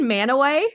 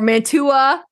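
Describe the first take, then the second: First: No t sound is heard in the middle. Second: A t sound is heard in the middle. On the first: This is how the locals say it. "It's fucking Manaway" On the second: This is how an outsider guesses from the spelling. "So that's what I thought"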